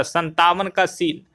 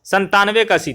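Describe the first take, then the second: First: "संतावन" slowly, ending in -aavan; slip of tongue. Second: "संतानवे" ending in -aanve; corrected number. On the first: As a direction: misspeak the number as "संतावन", san-taa-van. (ज़ुबान फिसलकर "संतावन", अंत में 'वन') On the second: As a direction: say "संतानवे" as san-taan-ve, correcting a slip. (सुधारकर "संतानवे", अंत में 'नवे') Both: Real, not acted. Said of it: "तो संतावन बोल रहे हैं".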